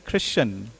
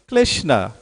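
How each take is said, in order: First: It is said in a North Indian style. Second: The R sound is not pronounced. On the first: "like North India" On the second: "they don't have the dexterity of the tongue to say the letter R"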